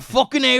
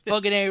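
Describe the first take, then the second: First: It is said in a British accent. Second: It is said in an American accent.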